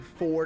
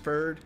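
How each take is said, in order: First: The vowel sounds like 'or'. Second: The vowel sounds like 'er'.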